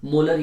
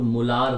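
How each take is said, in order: First: "मोलर" with a short second vowel; "मोलर" with an unstretched ending; short-vowel molar. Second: "मोलार" with a long aa; "मोलार" with a drawn-out second vowel; long-vowel molaar. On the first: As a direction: say "मोलर" as MO-lur, last syllable short. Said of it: "मोलर या कुछ लोग मोलार बोलते हैं". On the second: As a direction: say "मोलार" as mo-LAAR, stretching the last syllable. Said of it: "कुछ लोग मोलार बोलते हैं". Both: Shown as a demonstration.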